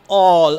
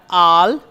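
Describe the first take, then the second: First: The vowel is rounded toward an O sound. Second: The vowel is a plain open A sound. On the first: The speaker calls it right. "a blending with o, o sound" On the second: The speaker calls it wrong. "We will not pronounce it as al"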